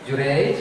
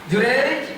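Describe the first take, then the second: First: The name is called at a lower pitch. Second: The name is called at a higher pitch. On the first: The mother calls for the first time. "Kali pertama ibunya dipanggil nih" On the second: The mother calls a second time, more insistently. "nada tinggi ya dari sebelumnya kayak gini"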